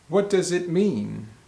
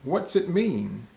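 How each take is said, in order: First: Every word is said fully and separately. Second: What and does are shortened into one syllable. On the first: "the third example question is" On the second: "we'll uh, shorten that and say"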